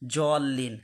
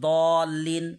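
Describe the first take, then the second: First: The first consonant sounds like a z. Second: The first consonant sounds like a d. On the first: The speaker calls it wrong. "আমরা অনেকেই বলে থাকি জলিন, তাহলে ওই জাল হয়ে গেল" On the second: The speaker calls it right. "কি বলবো আমরা"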